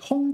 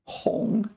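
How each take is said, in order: First: The syllable is said with a high level tone. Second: The syllable is said with a low dipping tone. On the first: "So that was the first tone one" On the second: "There is a third tone one with the same character"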